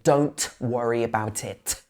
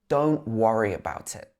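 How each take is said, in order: First: The t at the end of don't is pronounced. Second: The t at the end of don't is dropped. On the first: The speaker calls it wrong. "We don't say" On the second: The speaker calls it right. "We can say, ... not saying the t"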